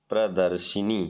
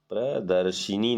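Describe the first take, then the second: Both takes have the same delivery.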